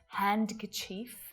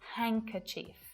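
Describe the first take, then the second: First: The D sound is clearly pronounced. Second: The D sound is left out entirely. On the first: The speaker calls it wrong. "We don't say Wednesday or handkerchief" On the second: The speaker calls it right. "It's just Wednesday, handkerchief. No D at all"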